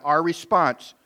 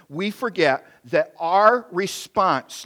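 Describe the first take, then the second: First: Said in the usual way. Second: "our" drawn out slowly and leaned on; slow emphasis on our. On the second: Shown as a demonstration. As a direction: linger on "our" in "our response". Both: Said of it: "let me repeat that".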